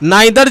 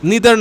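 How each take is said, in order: First: The first vowel sounds like 'eye'. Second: The first vowel sounds like 'ee'. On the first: "American pronunciation হয়ে যাচ্ছে" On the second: "এটা British pronunciation হয়ে যাচ্ছে"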